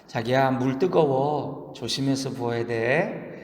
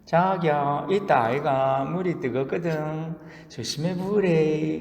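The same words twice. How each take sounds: First: Put-on slow, sweet Seoul-accented caution; Seoul woman. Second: Put-on slow, nasal Gyeongsang-accented cooing; nasal whine. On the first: Seoul woman warning about hot noodle water, slow Seoul accent. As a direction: warn your darling tenderly in a Seoul accent. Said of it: "서울 여자가". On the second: Gyeongsang woman copying Seoul sweet talk, drawn-out nasal voice. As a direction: coo through the nose, dragging out the syllables. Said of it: "코맹맹이 소리로 이렇게 말합니다".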